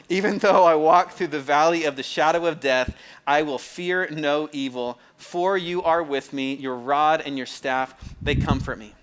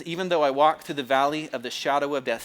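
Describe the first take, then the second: First: Loud, slow, ringing scripture recitation; solemn psalm cadence. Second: Measured scripture-reading cadence. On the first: Preacher showing the cadence he slips into, loud slow recitation. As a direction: proclaim each phrase slowly, like a grand reading. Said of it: "that, that cadence". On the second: Preacher reading the psalm aloud, measured reading cadence. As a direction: read it like a solemn recitation. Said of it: "See, I do it again. I just read it in that, that cadence". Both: Shown as a demonstration.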